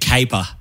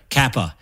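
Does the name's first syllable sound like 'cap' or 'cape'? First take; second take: cape; cap. First: The first syllable sounds like 'cape'. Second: The first syllable sounds like 'cap'. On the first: The speaker calls it wrong. "The amount of times someone said caper" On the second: The speaker calls it right. "My last name is Kappa with two P's"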